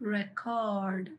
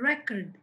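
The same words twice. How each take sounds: First: The stress is on the second syllable. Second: The stress is on the first syllable. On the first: It is used as a verb. "Second syllable మీద stress ఉంది అంటే అది verb" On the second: It is used as a noun. "Noun అయితే adjective అయితే దానికి first syllable మీద ఉంటుంది"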